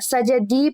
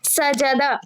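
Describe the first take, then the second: First: The word ends with an 'i' vowel. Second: The word ends with an 'a' vowel. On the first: The speaker calls it wrong. "सजदी पढ़ दिया" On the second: The speaker calls it right. "सजदा लिखा था"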